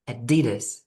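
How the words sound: It is said with an American accent. "in American English, people usually say Adidas"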